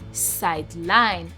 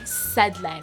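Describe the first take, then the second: First: The stress is on the second syllable. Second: The stress is on the first syllable. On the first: It is used as a verb. "the second syllable is the one that has the stress on it" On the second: It is used as a noun. "the first syllable, which is side, the side there has the stress"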